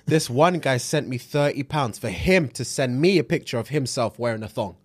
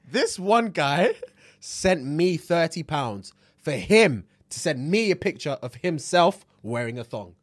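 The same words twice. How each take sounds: First: It is read at a faster pace. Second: It is read at a slower pace.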